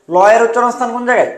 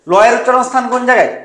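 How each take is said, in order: Both takes have the same delivery.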